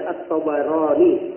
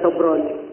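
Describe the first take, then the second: First: The b is followed by an a vowel. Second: The b is followed directly by r. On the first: The speaker calls it right. "Ba'nya di fathah At-Tabarani" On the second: The speaker calls it wrong. "tidak boleh dibaca Tabrani"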